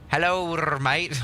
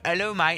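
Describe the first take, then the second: First: It is said in a Scottish accent with R. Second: It is said in an Australian-sounding accent.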